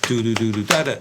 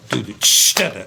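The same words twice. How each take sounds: First: Sung, "do do do do da da" even, no "ch"; sung, keep every "do" closed and even; sung, plain drum syllables; sung, plain scat groove. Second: "ch" hissed in place of the third "do"; scatted groove with a hissed "ch"; open hi-hat "ch". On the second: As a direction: hit the "ch" like a splashy open hat. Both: Shown as a demonstration. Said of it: "open the hi-hat on the and".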